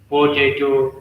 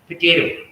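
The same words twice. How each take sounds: First: The first vowel is fully pronounced. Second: The first vowel is dropped or shortened. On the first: "Like we say" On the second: "certain vowel sounds are either dropped or shortened"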